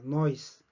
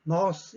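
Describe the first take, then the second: First: The vowel glides into an 'ee' sound. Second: A single open vowel with no glide. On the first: This is how locals actually say it. "실제 현지에서 들어보면 noise라고 됩니다" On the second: This is the careful pronunciation. "또박또박 발음할 때는 nose, 입을 크게 벌리고"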